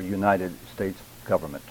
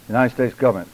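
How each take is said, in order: First: Each word is clearly and separately articulated. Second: The words are slurred and run together. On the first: The speaker calls it right. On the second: The speaker calls it wrong.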